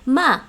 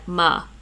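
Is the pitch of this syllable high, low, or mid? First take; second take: high; low. First: The syllable is held level at a high pitch. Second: The syllable is held level at a low pitch. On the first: "my high level for Cantonese would be ma" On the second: "my low level would be something like ma"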